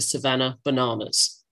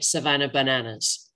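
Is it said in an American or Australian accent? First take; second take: Australian; American. First: It is said in an Australian accent. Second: It is said in an American accent.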